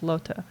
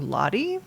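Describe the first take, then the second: First: The name is said in a German way. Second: The name is said in an English way. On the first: "they're using the German pronunciation, which is Lota" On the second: "in my brain I just called her Lottie"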